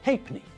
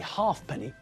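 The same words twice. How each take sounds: First: The f sound is dropped, like 'hay-p'ny'. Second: The f sound is pronounced, like 'half penny'. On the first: The speaker calls it right. "we say halfpenny" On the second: The speaker calls it wrong. "We don't say halfpenny"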